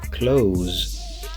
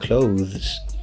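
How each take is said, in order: First: The th sound is dropped, sounding like close. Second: The th sound is pronounced before the ending. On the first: "we just say close, as in close the door" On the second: "instead of saying clothes"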